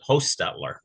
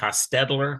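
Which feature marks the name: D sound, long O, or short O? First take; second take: long O; D sound. First: The first vowel is a long O. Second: The middle consonant is a D sound. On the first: This is how the speaker's family says it. "with a long O" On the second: Some other people say it this way. "with a D"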